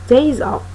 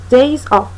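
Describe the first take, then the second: No difference in how they are said.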